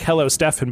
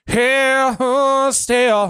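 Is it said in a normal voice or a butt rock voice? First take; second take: normal; butt rock. First: It is said in a normal speaking voice. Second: It is said in a put-on butt rock voice.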